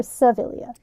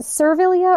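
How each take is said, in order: First: "Servilia" with a softened r, ending in yuh; pronunciation option two. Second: "Servilia" with the r sounded, ending in ee-uh; pronunciation option one. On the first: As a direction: say "Servilia" as suh-VIL-yuh. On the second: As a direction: say "Servilia" as ser-VIL-ee-uh. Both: Shown as a demonstration. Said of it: "Is it Servilia or Servilia?".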